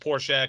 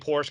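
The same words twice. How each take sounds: First: The final e is sounded. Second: The final e is left silent. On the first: This is the German way. The speaker calls it right. "it's Porsche because you pronounce the E" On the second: This is the common non-German way. The speaker calls it wrong. "people say Porsche"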